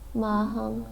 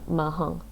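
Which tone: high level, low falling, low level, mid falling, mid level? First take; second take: high level; low falling. First: The syllable has a high level tone. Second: The syllable has a low falling tone. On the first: "high level" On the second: "low falling"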